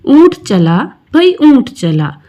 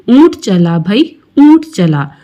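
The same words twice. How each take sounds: First: Poem recitation. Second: Said in the usual way. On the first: Acted. Closing refrain of recited poem.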